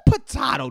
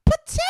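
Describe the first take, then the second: First: "potato" with a broad ah, pot-AH-to; "potato" the other way, pot-AH-to; second potato with ah. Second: "Potato" squeaked very high and loud; potato said differently. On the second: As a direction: spit out "Potato" in a shrill yelp. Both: Shown as a demonstration.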